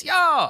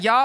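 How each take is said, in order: First: "y'all" with a rounded "aw", very high; corrected y'all. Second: "y'all" with an open "ah" vowel, high; mock the wrong "y'all", sounded like "yah". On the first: Acted. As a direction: belt out "y'all" as a long "yaww". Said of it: "it's not y'all, it's y'all". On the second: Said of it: "Look, it's not y'all".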